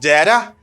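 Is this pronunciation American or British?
American. It is said with an American pronunciation. "it's because in United States of America, people say that"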